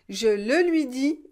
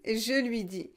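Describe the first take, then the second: First: The pronoun le is clearly pronounced. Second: The pronoun le is left out entirely.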